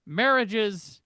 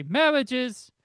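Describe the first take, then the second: First: Said in the usual way. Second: Marriages with the r softened toward w and an l, like mehlages; Barbara Walters pronunciation. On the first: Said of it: "or she would say marriages". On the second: Retold or imitated. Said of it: "she would say".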